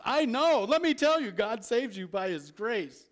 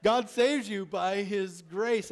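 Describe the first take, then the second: First: Much higher and louder, bursting with conviction; fervent, confident declaration; confident emotion. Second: Said in the usual way. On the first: Shown as a demonstration. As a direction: say it like you know it's true. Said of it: "with some emotion, some place of confidence". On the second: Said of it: "when you say that with some eye".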